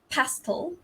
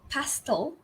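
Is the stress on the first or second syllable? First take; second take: first; first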